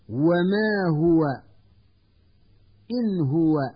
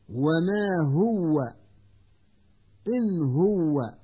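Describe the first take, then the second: First: The w sound is short and single. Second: The w sound is doubled and held longer. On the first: The speaker calls it right. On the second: The speaker calls it wrong.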